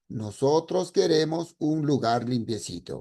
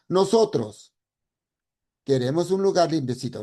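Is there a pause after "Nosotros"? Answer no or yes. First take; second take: no; yes. First: It is said without a pause after nosotros. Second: It is said with a pause after nosotros.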